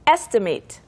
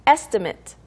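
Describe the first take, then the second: First: The last syllable is a full 'mate' sound. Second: The last syllable is a short, reduced 'mit'. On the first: It means to roughly calculate something. "동사" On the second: It names a rough calculation or quote. "명사"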